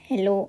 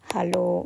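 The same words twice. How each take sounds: First: The first vowel is an 'e' sound. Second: The first vowel is an 'a' sound. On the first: This is the English greeting. "ఇది ఇంగ్లీష్లో హలో, ఈ ఉంది" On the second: This is the German greeting. "మనం జర్మన్లో ఏని ఆగా పలుకుతాం కదా, అలా"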